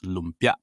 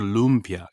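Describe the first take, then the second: First: The vowels are clipped short. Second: The vowels are drawn out long. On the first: The speaker calls it right. "You have to cut every vowel short" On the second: The speaker calls it wrong. "It's never lumpia"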